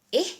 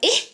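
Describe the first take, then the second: First: The interjection sounds puzzled and wondering. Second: The interjection sounds sudden and startled. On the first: The speaker is wondering about something. "di sini mengatakan dia hairan kan?" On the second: The speaker is suddenly surprised. "Perbezaan tone yang saya lontarkan"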